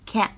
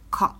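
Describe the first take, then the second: First: It is said in an American accent. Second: It is said in a British accent. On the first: "美式英语呢读的是can't" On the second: "英式英语呢当中读的是can't"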